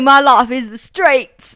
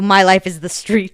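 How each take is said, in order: First: It is spoken in a put-on British accent. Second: It is spoken in the speaker's normal accent. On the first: The speaker calls it right. "I can't do a British accent right now" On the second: The speaker calls it wrong. "that's not the right voice"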